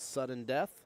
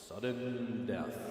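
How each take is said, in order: First: It is said in an ordinary speaking voice. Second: It is said in a dramatic announcer voice. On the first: The speaker calls it wrong. "I haven't been saying that right this whole time" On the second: The speaker calls it right. "my real announcer voice here"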